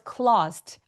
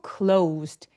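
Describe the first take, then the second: First: The vowel stays a flat o without glide. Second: The vowel glides from o into oo. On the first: The speaker calls it wrong. "아니고" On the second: The speaker calls it right. "의도적으로 우 소리까지 어, 꼭 날 수 있게"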